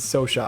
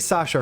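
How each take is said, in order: First: The first vowel sounds like 'o' in 'so'. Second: The first vowel sounds like 'a' in 'cat'. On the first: The speaker calls it right. "her name is Sosha" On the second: The speaker calls it wrong. "I say Sasha"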